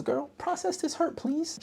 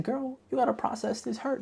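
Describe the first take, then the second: First: Put-on much higher, pleading girlfriend voice; high sassy plea. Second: Put-on much higher, sing-song girlfriend advice; high sassy advice. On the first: Viewer reading her note to the heroine, high and pleading. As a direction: beg her like a sassy bestie. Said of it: "my next note says". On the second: Viewer advising the heroine, in a high sassy voice. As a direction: coo it like a sassy bestie. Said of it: "I said".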